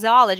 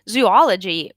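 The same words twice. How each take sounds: First: The word starts with 'zoo' and contracts 'ology'. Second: The word keeps a full separate 'ology' ending. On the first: The speaker calls it wrong. "but everybody says zoology" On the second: The speaker calls it right. "the correct pronunciation of the word zoology is actually zoology"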